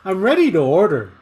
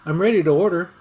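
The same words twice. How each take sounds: First: "ready" punched, each word separate and careful; textbook delivery. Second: "ready" lightly stressed, words run together; natural casual read. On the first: Teacher showing the stiff textbook way of ordering, overly careful. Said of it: "like the textbook". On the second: Teacher showing how she would really order, casual and linked. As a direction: say it the relaxed everyday way. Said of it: "I'd probably say it like". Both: Shown as a demonstration.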